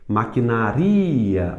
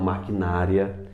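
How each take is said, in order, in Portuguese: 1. A tônica está na sílaba ri. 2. A tônica está na sílaba na. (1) "o ri é mais forte" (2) "e não maquinária"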